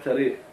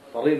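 First: The first consonant is a light plain t. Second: The first consonant is a heavy emphatic t. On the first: The speaker calls it wrong. "الطاو الغوا تاء شيك وبالقرى تريق" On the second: The speaker calls it right. "الطاو التاء بيرضوها"

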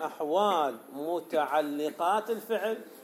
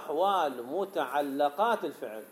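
First: The L sound carries the vowel i. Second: The L sound carries the vowel a. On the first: The word is read as an active participle. "باسم الفاعل" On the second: The word is read as a passive participle. "أو باسم المفعول"

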